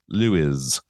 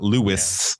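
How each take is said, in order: First: The word ends softly with a z sound. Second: The word ends with a sharp s sound. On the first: The speaker calls it right. "It's like a soft pronunciation. as if it were L E W I Z" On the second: The speaker calls it wrong. "It's not Lewis"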